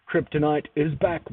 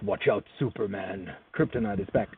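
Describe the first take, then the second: First: Said in the usual way. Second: Low, menacing warning; lightly voiced villain threat; ominous villain voice.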